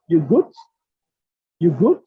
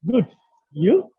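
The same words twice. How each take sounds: First: Loud questioning. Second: Said in the usual way. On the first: Shown as a demonstration. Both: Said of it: "the question is like".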